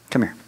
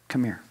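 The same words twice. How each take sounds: First: Lightly voiced dad, kindly; a hint of a big hugging father; dad's come here. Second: Soft, much quieter come here; whisper-soft welcome, arms open; tender invitation. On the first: Dad calls his struggling son over for a hug, lightly imitated. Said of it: "this is what my dad would do". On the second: Acted. God calls the burdened listener close, softly.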